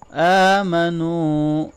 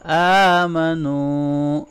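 First: آمَنُوا with the standing fatha and the waw madd both long; both vowels long. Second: آمَنُوا slowly with both long vowels held. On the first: Teacher demonstrating two long vowels to students. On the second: Teacher repeating after explaining lengthening, slow. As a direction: hold the first and last vowel of آمَنُوا. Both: Shown as a demonstration. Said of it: "دونوں کو long کریں گے".

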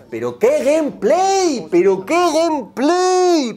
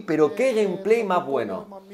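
First: High, loud, slow mock praise of gameplay; sarcastic shout. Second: Said in the usual way. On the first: Streamer sarcastically praises a menu as gameplay, high and loud.

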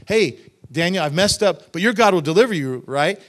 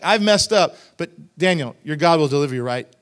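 First: Breezy, louder assurance with a quick tag; casual, confident. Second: Loud confession sliding into a questioning plea; asking, unsure. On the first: King breezily assuring Daniel he'll be fine, casual and confident. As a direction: toss it off loudly as a sure thing. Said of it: "He's not saying it like". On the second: Guilty king asking Daniel for reassurance, unsure and questioning. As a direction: own up, then seek reassurance. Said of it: "He, he's kinda asking, like, a question". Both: Retold or imitated.

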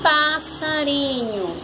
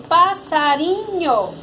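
First: "passarinho" slowly, as one joined word; palavra juntada. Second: "passarinho" syllable by syllable; sílabas separadas. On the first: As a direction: draw "passarinho" out smoothly as a whole. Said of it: "formou a palavra". ("passarinho" devagar, palavra inteira) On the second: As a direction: say "passarinho" in measured syllable pieces. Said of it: "Você vai juntar". ("passarinho" dito sílaba por sílaba) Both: Shown as a demonstration.

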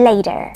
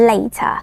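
First: American "later" with the final R sounded; American English pronunciation, R-coloured ending; American accent. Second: British "later" with a crisp T; British English pronunciation; British accent. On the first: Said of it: "ในแบบอเมริกัน". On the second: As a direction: say it the British way, dropping the final R. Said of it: "ในแบบอังกฤษ". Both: Shown as a demonstration.

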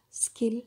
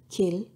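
First: "skill" with no puff after the k; "skill" said with a plain, unaspirated k after the s. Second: "kill" with a puff of air after the k; "kill" said with a strongly aspirated k, kʰill. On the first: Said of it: "is unstressed and unaspirated". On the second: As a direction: breathe out hard on the k of "kill". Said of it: "ka sound is aspirated". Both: Shown as a demonstration.

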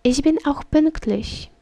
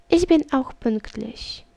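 The two takes are said the same way.

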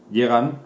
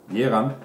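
Both takes have the same delivery.

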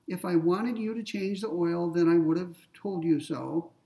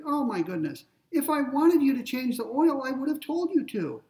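First: Said in the usual way. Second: Higher, louder exasperated parent. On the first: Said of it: "premise number one". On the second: Retold or imitated. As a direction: scold the grown child in mock exasperation. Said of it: "Maybe I'm exasperated".

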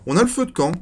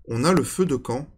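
First: Excited. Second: Said in the usual way. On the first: Real, not acted. Excited at finding campfire.

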